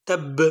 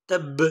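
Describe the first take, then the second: No difference in how they are said.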